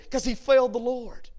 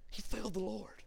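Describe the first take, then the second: First: Raised-pitch, emphatic answer; emphatic preaching. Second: Very soft, hushed repeat. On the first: Preacher explaining Peter's broken heart, emphatic. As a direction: answer your own question firmly from the pulpit. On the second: Preacher on Peter's broken heart, hushed. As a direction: drop right down and let it sink in. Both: Real, not acted.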